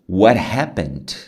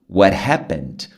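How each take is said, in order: First: The t in what sounds like an r. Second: The t in what sounds like an r.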